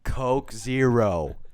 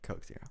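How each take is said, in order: First: It is said very loudly. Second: It is said very quietly. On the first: "very loudly" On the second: "very quietly"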